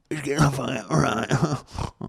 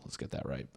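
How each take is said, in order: First: Drawn-out sing-song repeat, higher, slow; sing-song correction. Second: Softly muttered aside, unvoiced; muttered self-correction. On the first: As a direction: stretch it out teasingly, higher. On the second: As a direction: mutter it to yourself. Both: Real, not acted.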